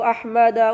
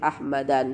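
First: The word ends in a plain a vowel. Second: The word ends in an added n sound. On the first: The speaker calls it right. "Tanda nasabnya fathah tanpa tanwin" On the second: The speaker calls it wrong. "Tidak boleh Ahmadan"

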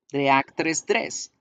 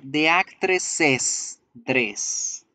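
First: The s sounds merge into a single s. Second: An extra syllable is added, like a plural. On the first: It sounds like a plain actress dress, not possession. The speaker calls it wrong. "todas las S van a sonar como una sola S" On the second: It shows the dress belongs to the actress. The speaker calls it right. "esa posesión se debe pronunciar así"

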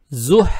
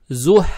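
The two takes are said the same way.

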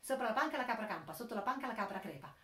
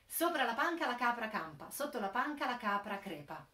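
First: It is said quickly. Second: It is said slowly.

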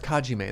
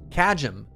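First: It is said with a Japanese-style pronunciation. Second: It is said with a plain English-style pronunciation. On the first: "I'm giving it a very like Japanese pronunciation" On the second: "Is it just pronounced Kajim?"

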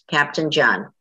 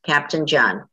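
First: The name is said in full, with a clear 'pt' in 'Captain'. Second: The name is said in full, with a clear 'pt' in 'Captain'.

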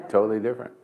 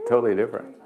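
Both takes have the same delivery.

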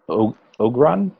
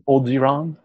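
First: The name is said with two syllables. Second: The name is said with three syllables. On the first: The speaker calls it wrong. "Is that how you say it?" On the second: The speaker calls it right. "it's pronounced Ogiron"

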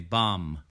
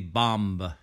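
First: The word ends with no 'b' sound after the 'm'. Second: The word ends with an audible 'b' sound. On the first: The speaker calls it right. "We say bomb" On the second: The speaker calls it wrong. "we do not say bomb"

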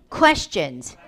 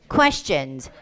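No difference in how they are said.

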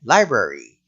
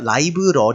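First: It is said with English sounds and rhythm. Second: It is said as separate Korean-style syllables. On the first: The speaker calls it right. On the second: The speaker calls it wrong.

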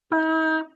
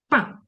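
First: The pitch stays high and level. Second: The pitch falls sharply from high. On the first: "перший тон. Він іде зверху" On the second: "І четвертий. Коли ми кажемо, ругаємося"

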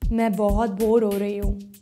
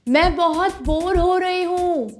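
First: It is said at a low pitch. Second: It is said at a high pitch.

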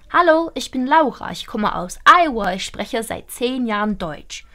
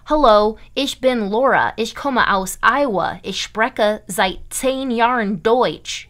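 First: It is spoken with a native-like German accent. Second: It is spoken with a strong English-speaking accent. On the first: The speaker calls it right. "You want to sound like a German" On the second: The speaker calls it wrong. "You don't want to sound like this"

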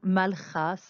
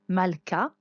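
First: The middle consonant is a soft, raspy sound. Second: The middle consonant is a hard k sound. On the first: The speaker calls it wrong. "ça ne fonctionnerait pas" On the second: The speaker calls it right. "il se prononce d'une façon forte"

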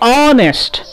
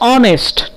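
First: The word begins directly with a vowel sound. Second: The same.

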